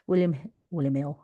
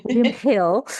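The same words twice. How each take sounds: First: William Hill in Cockney accent. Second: William Hill in exaggerated Cockney; Cockney accent. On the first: Real, not acted. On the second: Shown as a demonstration. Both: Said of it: "you can hear my Cockney accent there".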